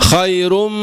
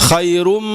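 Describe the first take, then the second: No difference in how they are said.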